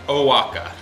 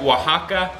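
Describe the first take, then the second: First: It is pronounced with an English-speaker accent. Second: It is pronounced the local Spanish way.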